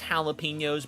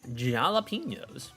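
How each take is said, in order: First: The word is pronounced in the standard way. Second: The word is pronounced in a deliberately silly way. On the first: The speaker calls it right. "That's pronounced jalapenos" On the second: The speaker calls it wrong. "I am just, you know, being obnoxious"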